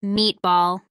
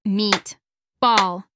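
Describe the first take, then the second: First: Said in the usual way. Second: "Meat. Ball." as two separate beats, pitched low; split into syllables. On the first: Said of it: "say the syllables in the words". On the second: Shown as a demonstration. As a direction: break meatball into "Meat", pause, "Ball". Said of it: "Listen as I clap and say the syllables in the words".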